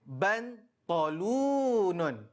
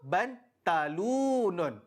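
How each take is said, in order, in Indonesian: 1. Bunyi t-nya berat dan emfatik. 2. Bunyi t-nya biasa dan ringan. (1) "dengar betul-betul sebutan Ustaz" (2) "tukar kepada huruf ta ... sebutan yang salah"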